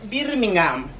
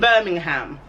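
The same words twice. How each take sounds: First: Birmingham is said with a Spanish accent. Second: Birmingham is said with an English accent. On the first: "we try to say it the way the Spaniards do" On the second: "we generally say with an English accent"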